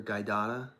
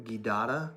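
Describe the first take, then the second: First: Guidata with first syllable like "guy"; alternative pronunciation. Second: Guidata with hard g, first syllable like "gee"; alternative pronunciation. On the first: Streamer trying another reading of the species name, tentative guy pronunciation. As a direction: say guidata as guy-DAH-ta, rising at the end. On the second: Streamer trying out an unfamiliar species name, tentative gee pronunciation. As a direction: say guidata as gee-DAH-ta, questioning lift. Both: Shown as a demonstration. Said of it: "or guidata".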